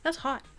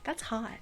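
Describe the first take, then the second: First: It is said as a pained reaction to heat. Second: It is said in an admiring, appreciative tone. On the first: The cup is burning to the touch. "And not in the fun way" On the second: Something is attractive or cool. "Not like"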